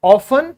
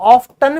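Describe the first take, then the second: First: Often said as "off-en" with the t silent. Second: Often said as "off-ten", sounding the t. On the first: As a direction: say often with no t sound. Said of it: "पहले टी silent होता था". (often, टी silent के साथ) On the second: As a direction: pronounce the t in often. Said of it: "कई लोग often भी बोलने लगे हैं". (often, टी बोलते हुए) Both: Shown as a demonstration.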